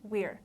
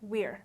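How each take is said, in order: Both takes have the same delivery.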